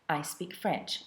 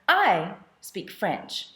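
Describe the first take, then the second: First: The word 'I' is said without special emphasis. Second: The word 'I' carries strong emphasis. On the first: A plain statement of a fact. "I'll just say it in English" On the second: It is this person, as opposed to others, who speaks French. "You see how it changes the meaning there?"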